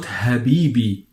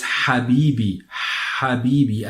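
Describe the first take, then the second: First: HABIBI with an ordinary light English h; mispronounced ha. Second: HABIBI opening on a strong, throaty Arabic ha. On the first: Teacher shows learners the mistake, English h in Habibi. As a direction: soften the first sound of HABIBI to an English h. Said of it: "So it's not Habibi". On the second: Teacher models the correct letter, throaty ha in Habibi. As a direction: push breath through the throat to start HABIBI. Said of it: "this is the correct pronunciation of this letter". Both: Shown as a demonstration.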